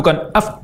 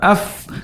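First: The f is colored by an open mouth. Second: The f is plain with no added vowel color. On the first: The speaker calls it wrong. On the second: The speaker calls it right. "kembali ke makhrajnya, tanpa dipengaruhi oleh terbukanya mulut"

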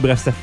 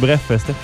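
First: The phrase is said quickly. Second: The phrase is said slowly. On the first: "Quand je parle de toi vite" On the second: "Si je dis lentement"

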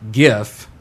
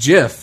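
First: The word begins with a hard G sound. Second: The word begins with a soft J sound. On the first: "you're pronouncing G-I-F with the hard R after all" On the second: "it's pronounced, and then he does in quotation marks, J-I-F"

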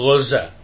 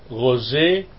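First: The final vowel is a plain open 'a'. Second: The final vowel is tilted toward 'e' or 'i'.

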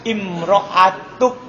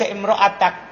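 First: The word ends with a short 'u' vowel. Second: The word ends with a short 'a' vowel. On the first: The word stands in apposition to the subject. "Datang dalam kiro'ah dibaca doma" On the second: The word is an exception in the sentence. "Dia baca imro'atak"

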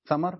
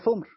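First: Both syllables have the vowel a. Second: One u vowel, then no vowel after m. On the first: "ثمر بفتحتين" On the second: "ثمر بضمة في السكون"

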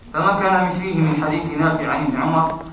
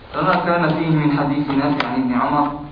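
No difference in how they are said.

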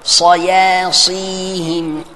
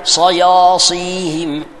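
First: The consonants sound light and thin. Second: The consonants sound heavy and darkened. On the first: The speaker calls it right. "apa yang betul?" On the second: The speaker calls it wrong. "Jangan cakap sayasihim"

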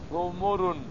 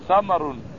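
First: Both first vowels are 'u': thumur. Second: Both first vowels are 'a': thamar. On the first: "قال بعضهم بالذمها" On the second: "وبفتح الميم ثمر"

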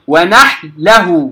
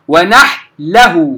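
First: The ḥā is silent and runs into the lām. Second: The same.

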